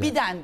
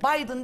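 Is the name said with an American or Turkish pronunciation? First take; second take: Turkish; American. First: The name is read the Turkish way, letter by letter. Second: The name is said with an American English pronunciation. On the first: Everyone should say it in their own accent. The speaker calls it right. "Biden diyelim yani" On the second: It sounds like a schoolkid imitating Americans. The speaker calls it wrong. "kendim böyle Amerikan aksanlı konuşmaya çalışan ortaokul talebesi gibi hissediyorum"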